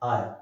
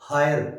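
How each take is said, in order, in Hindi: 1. शब्द सीधे एक स्वर की ध्वनि से शुरू होता है। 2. शब्द एक सुनाई देने वाली h ध्वनि से शुरू होता है। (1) "एच इज साइलेंट" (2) "ये नहीं बोला जाता"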